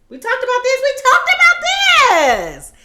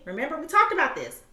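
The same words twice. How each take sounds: First: Exasperated shout. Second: Said in the usual way. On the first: Acted. Repeats the phrase louder.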